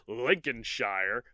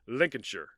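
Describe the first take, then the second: First: The ending is said as the full word shire. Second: The ending is reduced to a short sher. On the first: The speaker calls it wrong. "it's spelled Lincolnshire" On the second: The speaker calls it right. "it's more like Lincolnshire"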